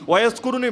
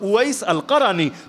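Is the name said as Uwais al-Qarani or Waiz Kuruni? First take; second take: Waiz Kuruni; Uwais al-Qarani. First: The name is said as Waiz Kuruni. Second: The name is said as Uwais al-Qarani. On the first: The speaker calls it wrong. "ভুল উচ্চারণ" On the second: The speaker calls it right. "মূল হলো"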